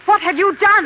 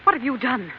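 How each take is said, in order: First: Much higher and louder, frightened; alarmed shout. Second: Said in the usual way. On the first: Acted. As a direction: cry it out in shock. Wife confronting husband.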